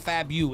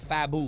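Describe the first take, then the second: First: The second syllable has a 'you' sound. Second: The second syllable has no 'you' sound. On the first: The speaker calls it wrong. "not fabu. There's no you" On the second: The speaker calls it right. "It's fabu"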